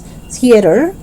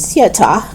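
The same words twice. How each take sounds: First: It is said in an American accent. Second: It is said in a British accent. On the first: "No, it's theater" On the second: "if you're British"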